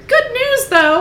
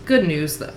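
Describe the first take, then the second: First: Very high, loud Capitol squeal; silly Capitol accent. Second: Said in the usual way. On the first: A narrator's reading. Reader redoing Venia's line in character, silly high Capitol accent. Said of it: "speak in such a high pitch". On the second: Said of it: "Oh, I'm sorry".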